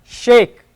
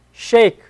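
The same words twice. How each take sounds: The two takes are said the same way.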